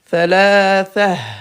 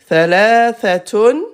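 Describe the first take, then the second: First: The word ends with a breathy -ha sound. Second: The word ends with a full -tun ending. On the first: The speaker stops after this word. "à l'arrêt, on enlève ton et on met ha" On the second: The speaker is continuing on to more words. "le mot c'est thalathatun"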